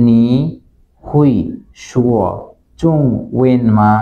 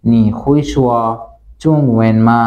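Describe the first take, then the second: First: নি, হুই, শুয়া, চুং, when মা each said apart with a pause between; word by word. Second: Said in the usual way. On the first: Shown as a demonstration. Teacher splits the Chinese question for learners, word by word with pauses. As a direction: break নি হুই শুয়া চুং when মা into separate slow words. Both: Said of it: "এর প্রশ্নটা হবে এরকম".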